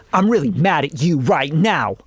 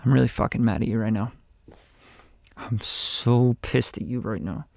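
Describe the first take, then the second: First: Hammed-up mad line with swooping emphasis; unnatural mock anger. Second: Low, quiet, contained anger; really mad. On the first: Coach shows the unconvincing way of being mad, exaggerated. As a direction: overplay the anger so nobody believes it. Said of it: "to 'em like this". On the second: Coach shows how really mad people talk, quietly angry. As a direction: keep the fury down, low and soft. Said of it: "when you're really mad". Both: Shown as a demonstration.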